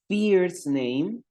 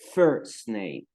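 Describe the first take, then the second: First: The vowel in first sounds like Spanish I. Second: The vowel in first sounds like Spanish E. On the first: The speaker calls it wrong. "no vamos a decir" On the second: The speaker calls it right. "Aquí la I suena como una E"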